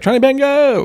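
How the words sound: It is said in an eager, enthusiastic tone. The speaker is keen and accepting. The speaker calls it right. "that means you're up for it"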